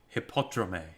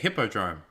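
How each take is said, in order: First: It is said with an exaggerated Greek-style pronunciation. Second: It is said with ordinary English pronunciation.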